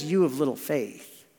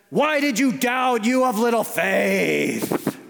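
First: Gentle rebuke in a lower, easy voice; mild, affectionate chiding; endeared, not scolding. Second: Slow, drawn-out hammed-up shout; exaggerated mad Jesus, stretching each word; mock angry scolding. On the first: Acted. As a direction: say it fondly, with no scolding. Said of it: "because he's endeared to Peter". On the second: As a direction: roar it as an over-the-top furious rebuke. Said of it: "If he was mad".

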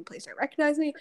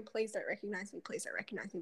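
First: Said in the usual way. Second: Whispered pleading under the breath, much softer; mock-panicked whisper to herself; hushed plea. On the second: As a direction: breathe it as a desperate whispered prayer not to be seen. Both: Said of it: "I was just sitting there going".

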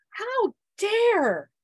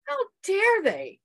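First: How dare, high and loud, drawn out; furious how dare. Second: How dare they, high, loud and slowed; furious how dare they. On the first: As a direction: fling the words at the kids. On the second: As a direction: repeat it, slower and heavier. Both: Retold or imitated. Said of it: "I was furious".

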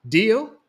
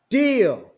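First: "Deal?" higher and louder, rising at the end; exclaimed question. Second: "Deal!" higher and louder, falling firmly; mother and cousin seal it together; exclaimed answer. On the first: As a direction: Brandon eagerly checks the deal. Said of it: "Brandon exclaimed". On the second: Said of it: "Mom and Denisha responded in unison". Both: Acted.

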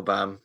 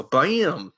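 First: Said in the usual way. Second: BAM stretched out long, "ba-a-yam"; overexcited catchphrase. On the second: Retold or imitated. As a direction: draw BAM out in a silly mock announcer way. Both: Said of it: "thinks that's how you pronounce Bam".

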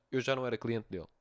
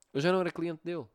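First: Said in the usual way. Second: Louder and higher, stressing "já"; emphatic repeat. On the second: Shown as a demonstration. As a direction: hammer the point home, leaning on "já". Repete a frase para enfatizar. (repetição enfática, mais alta, a acentuar "já")

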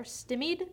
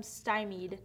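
First: "stymied" with first syllable like "stim"; first vowel of "stymied" as in "him"; short i pronunciation. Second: "stymied" with first syllable like "sty"; first vowel of "stymied" as in "eye"; long i pronunciation. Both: Real, not acted. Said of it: "or stymied".

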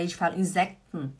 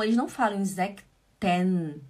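First: "Insekten" with the ending swallowed, like "Insekt'n"; "Insekten" clipped at the end, the "-ten" half eaten; natural German pronunciation. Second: "Insekten" with every syllable spelled out, ending "-ten" fully said; slow, careful "Insekten" with a clear final "-ten"; wrong pronunciation. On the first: Showing the student how Germans really say "Insekten", ending swallowed. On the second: Showing the student the bookish way to say "Insekten". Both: Shown as a demonstration.

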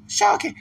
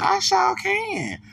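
First: Very high squeaky "Sure can"; mock falsetto "Sure can", short and bright; high sing-song gloat. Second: Drawn-out, very high slow sing-song; mock falsetto "I sure can", slow and drawn out; high sing-song gloat. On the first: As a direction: toss off a smug falsetto echo. Gloating echo. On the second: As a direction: croon it like a smug little song. Gloating about suing.

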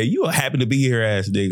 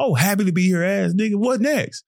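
First: Said in the usual way. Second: High, teasing jab at a teammate; mocking teammate taunt. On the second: Taunting teammates to get them fired up, high mock jab. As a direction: needle them with a higher mocking lilt. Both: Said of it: "to get my teammates into the game".

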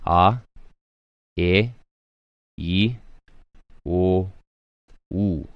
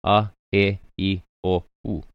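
First: Each vowel "A, e, i, o, u" held longer for the kahako. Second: Short, clipped a, e, i, o, u with no kahako; short vowels. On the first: Teacher showing the class vowels lengthened by the kahako. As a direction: stretch every vowel out, drawn long. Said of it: "so that vowel sound is gonna be a little bit longer". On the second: Teacher showing the class short vowels a, e, i, o, u. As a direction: keep each vowel "a, e, i, o, u" brief. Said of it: "here with no kahako". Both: Shown as a demonstration.

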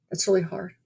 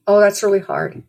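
First: Much softer, gentle echo; quietly repeating the comfort. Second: Said in the usual way. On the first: Retold or imitated. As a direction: let it drop to a hush. Comforting a crying stranger.

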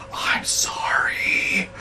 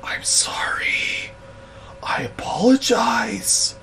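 First: Very slow, whispered, almost crying; tiny whispered sorry. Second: Slow, whispered, pitched up; whispered apology. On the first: Boss whimpering an apology to the angry stranger. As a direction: whimper it out, defeated. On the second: Cowed boss whispering sorry to the woman. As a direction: breathe out a pitiful apology. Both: Retold or imitated. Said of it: "literally the sound and tone of his voice".

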